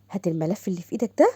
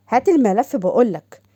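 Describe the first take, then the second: First: Said in the usual way. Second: Louder and slower, hammering the order home; slow and loud on هات الملف بقولك, making clear it won't be asked again; firm repeated demand. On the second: Acted.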